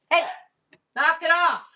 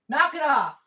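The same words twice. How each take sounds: First: Sharp scolding shout at the dogs; loud sharp voice. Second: High firm repeat of the command. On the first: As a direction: snap it out, high and loud. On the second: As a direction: scold the dogs again, high and firm. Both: Real, not acted. Don't make me get my mom voice going.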